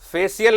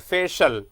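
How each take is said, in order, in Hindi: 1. अंत तीन आवाज़ों में बोला जाता है, 'shiyal'। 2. अंत एक छोटी 'shal' आवाज़ में बोला जाता है। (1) "फेशियल नहीं बोलना है" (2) "सीएल के जगह पे आपको बोलना है शल"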